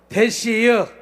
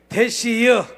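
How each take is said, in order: First: It is said in a Chungcheong dialect. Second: The same.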